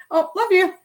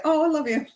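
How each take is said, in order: First: Mock dismissive. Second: Offhand. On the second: Retold or imitated. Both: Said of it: "I used to say".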